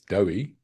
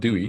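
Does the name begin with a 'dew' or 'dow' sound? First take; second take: dow; dew. First: The first syllable sounds like 'dow'. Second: The first syllable sounds like 'dew'. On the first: The speaker calls it right. "it's Dowie" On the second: The speaker calls it wrong. "It's not Dewey"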